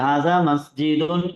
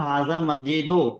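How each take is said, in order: First: The last word ends with a nasal 'oon'. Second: The last word ends with a plain 'oo'. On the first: The speaker calls it right. "सही है" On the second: The speaker calls it wrong. "ये इसको मैं पढ़ूंगा हाजा मस्जिदो। सही होगा, गलत होगा?"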